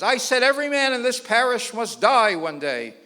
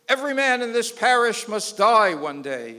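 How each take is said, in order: First: Louder, higher booming repeat; repeating the sermon line, sterner; priest insisting. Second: Booming pulpit voice, louder; sermon voice from the pulpit; priest preaching. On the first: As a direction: hammer it home at the laughing man. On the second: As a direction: preach it out to the parish. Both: Retold or imitated.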